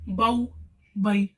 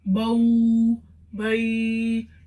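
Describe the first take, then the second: First: The syllables are cut off with an abrupt jerk. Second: The syllables are drawn out long with a jerk. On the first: "कैसे झटका नहीं देना, जैसे बाऊ बई ... इस तरीके से नहीं पढ़ना" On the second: "खींच कर नहीं पढ़ना ... इसमें झटका भी आ जाता है और खींच कर भी"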